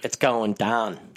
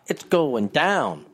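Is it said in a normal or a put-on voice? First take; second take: put-on; normal. First: It is said in a Chicago Dimes style voice. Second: It is said in his normal voice.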